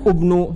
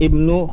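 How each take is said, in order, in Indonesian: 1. Kata ini diawali dengan vokal u. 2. Kata ini diawali dengan vokal i. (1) "jangan baca abnu atau ubnu salah" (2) "di depan dibaca dengan kasroh"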